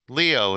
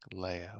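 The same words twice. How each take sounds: First: The name is said strongly, emphasizing the vowels. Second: The name is said softly, without strong vowels. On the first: This is how the name's owner was raised hearing it. The speaker calls it right. "Leo is a stronger name. I can emphasize more of the E O" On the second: This is how other cultures and languages say the name. The speaker calls it wrong. "It just sounds like a soft name"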